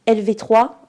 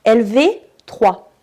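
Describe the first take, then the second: First: Said in the usual way. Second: "L V trois" spelled out slowly and louder; "L V trois", slow and loud, each letter hit; slow emphatic. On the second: Shown as a demonstration.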